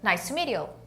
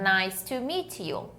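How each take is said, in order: First: It is said fast, with the words linked. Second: It is said slowly, each word separate. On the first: "um nativo falando" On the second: "Aqui eu estou ensinando para vocês paradinho"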